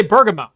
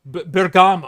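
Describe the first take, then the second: First: Bergamo stressed on the first syllable, BER-ga-mo; Americanized Bergamo. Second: Bergamo with an Italian "GAH" in the middle, ber-GAH-mo; technically correct Bergamo. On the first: Shown as a demonstration. Host defending his own pronunciation, Americanized Bergamo. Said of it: "I'll say Bergamo". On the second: Retold or imitated. Host quoting people who correct him, Italian-style Bergamo. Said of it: "it's technically Bergamo".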